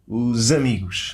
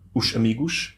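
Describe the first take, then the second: First: The s links into amigos as a z. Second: The s stays separate, not linked as z. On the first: The speaker calls it right. "that connecting z sound" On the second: The speaker calls it wrong. "it's not os amigos"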